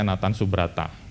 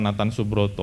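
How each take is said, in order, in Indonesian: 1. Nama belakangnya berakhir dengan vokal 'a'. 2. Nama belakangnya berakhir dengan vokal 'o'. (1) "orang-orang Sunda bilang saya" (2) "orang-orang Sunda bilang saya bukan"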